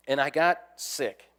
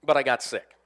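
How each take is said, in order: First: And I "got" sick, slow, with "got" leaned on hard; stress on got. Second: "but I got sick" pushed out louder, landing on "but"; a louder, firmer confession of "but I got sick"; louder admission. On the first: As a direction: drag out "I got sick" as a grudging confession. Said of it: "Now, I don't get sick". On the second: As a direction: punch "but" as the reluctant twist. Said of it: "I don't admit it when I'm sick". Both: Shown as a demonstration.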